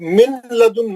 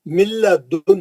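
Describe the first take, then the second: First: The n is pronounced before the l. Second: The n merges fully into a doubled l. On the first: The speaker calls it wrong. "नून पढ़ के लाम पढ़ते हैं। गलत है वो।" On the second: The speaker calls it right. "नून का आवाज भी नहीं निकलेगा और गुन्ना तो होगा ही नहीं"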